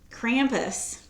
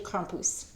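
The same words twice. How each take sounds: First: It is said with an American pronunciation. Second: It is said with an Austrian pronunciation. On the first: "as the Americans say" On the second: "I have a friend from Austria, and it's actually Krampus, something like that"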